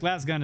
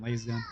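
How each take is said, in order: First: The vowel is short, rhyming with 'has'. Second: The vowel is long, rhyming with 'haze'. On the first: The speaker calls it right. "Laz gun I think sounds better to me" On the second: The speaker calls it wrong. "than Laze gun"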